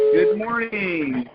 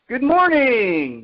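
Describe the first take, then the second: First: It is said with moderate energy. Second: It is said with higher, raised energy.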